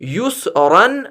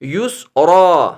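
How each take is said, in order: First: The word ends with an n sound. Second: The word ends with a long a vowel. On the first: The reciter continues without stopping. "दो जबर पर रुकने पर ... एक जबर खड़ा होकर अलिफ बन जाता है" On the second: The reciter stops here. "दो जबर पर रुकने पर ... एक जबर खड़ा होकर अलिफ बन जाता है"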